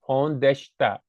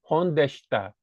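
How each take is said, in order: Both takes have the same delivery.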